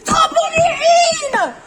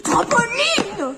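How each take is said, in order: First: Very slow, high, loud wailing scream; tantrum scream. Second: Slow, drawn-out high whine; whiny kid. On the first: Nathan screaming a tantrum at his mother, very loud and slow. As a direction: howl it like a tantrum. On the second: Nathan whining at his mother for the trampoline, slow and high. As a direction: stretch the word like a sulking child. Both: Acted.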